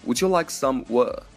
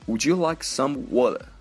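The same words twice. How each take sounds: First: The t in 'water' is dropped. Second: The same.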